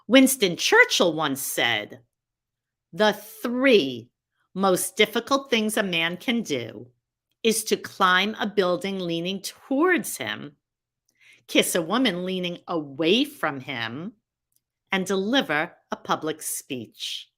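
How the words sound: It is said with deliberate pauses for impact.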